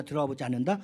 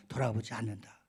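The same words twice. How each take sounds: First: "돌아보지 않는다" loud with a rising end; questioning tune. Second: "돌아보지 않는다" lower, with a falling end; answering tune. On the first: Pastor quizzing the congregation, "돌아보지 않는다" said with a questioning rise. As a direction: ask "돌아보지 않는다" as a quiz, lifting the last word. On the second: Pastor answering his own quiz, "돌아보지 않는다" said with a firm fall. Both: Shown as a demonstration.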